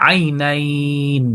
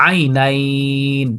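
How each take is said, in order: The two takes are said the same way.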